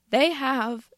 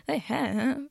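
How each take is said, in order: First: Said in the usual way. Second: A break in the voice on the vowel; voice cracking. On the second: Real, not acted. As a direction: voice cracks mid-word. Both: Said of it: "my voice just cracked".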